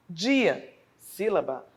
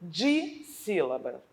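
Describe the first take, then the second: First: Dissílaba devagar, descendo no fim; bem pausado. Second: Dissílaba dito devagar, sílaba por sílaba; bem pausado. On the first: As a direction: repita Dissílaba marcando cada sílaba. (Dissílaba repetido devagar) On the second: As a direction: soletre Dissílaba na voz. (Dissílaba bem pausado) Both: Shown as a demonstration. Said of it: "vai me indicar a quantidade de sílabas".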